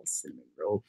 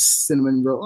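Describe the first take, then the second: First: Much softer, hushed and tender rise; soft aww. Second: Said in the usual way. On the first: Real, not acted. Streamer cooing back at a cute chat name, softly. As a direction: coo it like something adorable. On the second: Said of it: "Oh, cinnamon roll".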